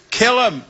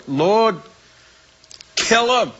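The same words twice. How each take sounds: First: High plea. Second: Cried out. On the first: Retold prayer, high pitched. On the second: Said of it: "I cried out to the Lord". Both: Retold or imitated.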